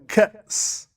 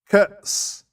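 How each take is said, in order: The two takes are said the same way.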